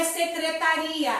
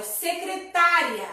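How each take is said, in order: First: Secretaria stressed on the RI; secretaria, accent landing on RI, not TA; stress on secretaria's RI. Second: Secretária stressed on TÁ, final -ria unstressed; secretária, accent landing on the third syllable; stress on secretária's TÁ. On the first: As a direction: say secretaria with a long stressed RI before the final A. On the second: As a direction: say secretária with the weight on TÁ. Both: Shown as a demonstration. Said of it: "não é secretaria".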